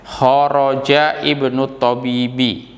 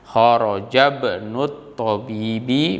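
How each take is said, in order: First: The 'i' is pronounced as a separate start. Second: The 'i' is dropped and the words run together. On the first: "boleh juga" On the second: "atau langsung nyambung karena namanya wasl"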